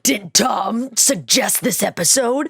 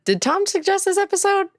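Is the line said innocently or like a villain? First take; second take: villain; innocently. First: It is said like a menacing anime villain. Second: It is said in a plain, innocent way.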